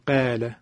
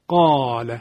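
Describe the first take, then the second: First: Qāla with a thin, fronted ā; wrongly light alif in qāla. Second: Qāla with a full, dark, heavy ā after qāf; heavy alif in qāla. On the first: Teacher showing what not to say, thinned alif in qāla. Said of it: "نمیم قال". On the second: Teacher showing the qāf rule, heavy alif in qāla. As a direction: thicken the long ā of qāla. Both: Shown as a demonstration.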